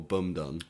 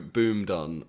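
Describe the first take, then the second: First: The first word has a short "u" vowel. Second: The first word has a long "oo" vowel. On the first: The speaker calls it wrong. "I say my own brand name wrong" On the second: The speaker calls it right. "It's Boom is the pronunciation"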